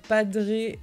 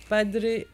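No difference in how they are said.

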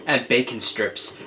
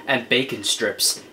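No difference in how they are said.

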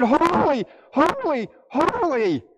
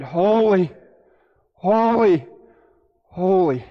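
First: Each HOLY swooped high and drawn out; emphatic cry of HOLY. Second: Said in the usual way. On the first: Acted. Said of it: "How can you emphasize the holiness of God?".

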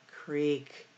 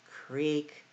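The two takes are said the same way.

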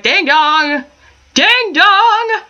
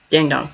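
First: High squawky ding dong; parrot voice. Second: Low parrot take. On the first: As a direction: mimic a talking parrot, rising higher. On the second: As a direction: lower deadpan ding dong. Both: Retold or imitated. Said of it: "a bird that's just like".

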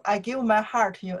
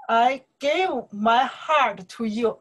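First: Fast, offhand repeat of the lyric; rushed plain read of the line; quick run-through. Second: Slow, drawn-out lyric recital; reciting the lyric slowly and tenderly; slow lyric reading. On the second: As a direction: savour each word like a love-song line. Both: Shown as a demonstration. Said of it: "What I say here?".

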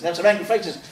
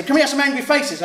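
First: Said in the usual way. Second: Eager teacher's call. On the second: Retold or imitated. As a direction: coax the class to pull angry faces. Teacher urging the class.

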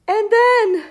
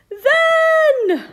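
First: High and loud, voice catching on then; rising fear. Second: Much higher and loud, strained squeal on then; panicked. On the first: Seed character dreads what happens next, fearful. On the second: Seed character panics over what happens next, squealing. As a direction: let the fear break through on then. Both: Acted.

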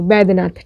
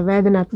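First: वैद्यनाथ begun with B instead of V; initial B sound. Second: वैद्यनाथ begun with a V sound; wrong initial V. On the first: Teacher corrects the name for learners, वैद्यनाथ with initial B. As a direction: say वैद्यनाथ as "baid-nath". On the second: Teacher shows learners the name to reject, वैद्यनाथ with initial V. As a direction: say वैद्यनाथ with V, as in "vaid-nath". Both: Shown as a demonstration. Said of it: "वैद्यनाथ नहीं".

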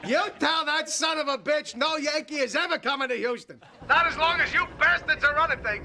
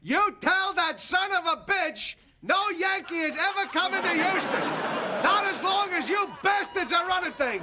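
First: Calls out into a phone at a noisy party; shouting into the phone. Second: Repeats it higher and louder so the far end hears; shouting louder. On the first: George to the Astros reps on the phone, shouting. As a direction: shouts it for the rivals to hear. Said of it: "I can't hear you". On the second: Asked to speak up, George to the Astros, shouting louder. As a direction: belt it up the phone line. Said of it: "now speak up, George". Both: Acted.

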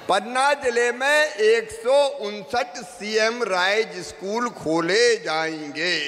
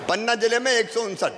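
First: Slow, stretched-out announcement to the rally; slow proclamation. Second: Said in the usual way. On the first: Real, not acted. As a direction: proclaim it word by word, dragging each one. Repeats the figure as proclamation.

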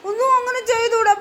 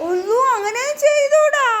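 First: Higher-pitched gentle telling-off; gentle admonishing. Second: High, stretched-out dismayed telling-off. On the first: Adult warning child not to hurt baby, gentle admonishing. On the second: Repeats the warning, more drawn out. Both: Real, not acted.

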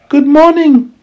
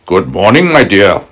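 First: Put-on polite little girl, very high; sweet young girl's greeting. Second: Sly wolf, a bit louder; crafty wolf greeting sweetly. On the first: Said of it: "she said politely". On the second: Acted. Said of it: "he said".

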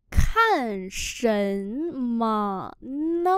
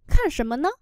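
First: Very slow drawn-out teaching pronunciation; slow syllable-by-syllable model. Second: Said in the usual way. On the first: Shown as a demonstration. Teacher models Chinese phrase for learners, very slowly. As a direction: stretch each syllable, pause between them.

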